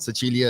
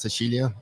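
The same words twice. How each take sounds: First: The c sounds like ch, northern style. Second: The c sounds like sh, southern style.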